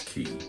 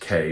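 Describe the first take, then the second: First: The word is said with an 'ee' vowel. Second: The word is said with an 'ay' vowel. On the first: This is the preferred pronunciation. "the word is preference is for pronunciation is key" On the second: This is the secondary pronunciation. "K is the secondary pronunciation"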